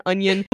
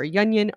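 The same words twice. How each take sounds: First: Said in the usual way. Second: Yunion with a y sound in front; YUN-yun pronunciation. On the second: Shown as a demonstration. Coworker naming a difficult customer, Yunion said with a leading y. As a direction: start Yunion on a y glide. Two pronunciations of a nickname contrasted.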